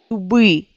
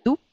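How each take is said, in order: First: "doubri" with a voiced B. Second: "Doup" with a voiceless P; "Doup" ending on P; final P. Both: Shown as a demonstration. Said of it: "ça devient B".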